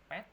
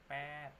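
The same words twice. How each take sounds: First: The vowel is cut short. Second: The vowel is held long. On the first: The speaker calls it wrong. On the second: The speaker calls it right. "pet ini panjang ya"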